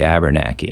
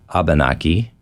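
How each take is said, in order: First: It is said with an added R sound. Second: It is said in a plain English accent. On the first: "if you're really, really, really from Vermont or New Hampshire" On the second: "a little more of a generic English way of saying it"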